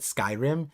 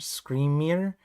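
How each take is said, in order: First: It sounds like 'sky-rim', two syllables. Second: It sounds like 'scree-mer', two syllables. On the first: The speaker calls it wrong. "I said Skyrim" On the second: The speaker calls it right. "It's it's probably like scree screamer"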